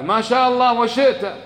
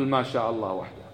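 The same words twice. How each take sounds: First: The man's habitual phrase, a touch higher; ما شاء الله وشئت said lightly raised, as a habit; wrong phrasing. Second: ما شاء الله وحده said softer and lower; corrected phrasing. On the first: Retold or imitated. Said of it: "فقال كما هو العادة". (عبارة خاطئة بنبرة أعلى قليلا) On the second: Shown as a demonstration. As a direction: give the right form quietly and firmly. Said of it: "قل". (التصحيح بصوت أهدأ وأخفض)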